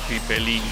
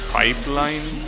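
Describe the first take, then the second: First: The last syllable rhymes with "pin". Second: The last syllable rhymes with "mine". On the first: The speaker calls it right. "would be better if it was pronounced pipelin" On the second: The speaker calls it wrong. "I don't like the word pronounced like that"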